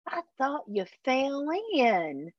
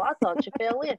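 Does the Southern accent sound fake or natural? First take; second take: fake; natural. First: It is said in a forced, fake Southern accent. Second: It is said in a natural Southern accent. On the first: An actor playing a Southerner badly. The speaker calls it wrong. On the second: How people from the South really say it. The speaker calls it right.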